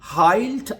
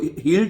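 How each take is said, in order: First: The vowel sounds like 'eye'. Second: The vowel sounds like 'ee'. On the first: The speaker calls it right. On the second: The speaker calls it wrong.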